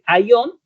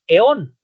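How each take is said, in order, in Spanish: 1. Las primeras vocales son dos sonidos: ah y luego ee. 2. La primera vocal es un solo sonido eh. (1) "en vez de decir aión" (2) "decimos eón"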